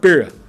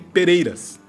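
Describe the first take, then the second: First: The town name is shortened to two syllables. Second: The town name is said in full. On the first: This is how the local people say the name. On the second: This is the standard form of the name.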